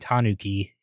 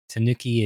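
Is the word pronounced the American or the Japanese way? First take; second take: Japanese; American. First: It is pronounced the Japanese way. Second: It is pronounced the American English way. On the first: "more the Japanese way to say it" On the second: "more of an American way to say it"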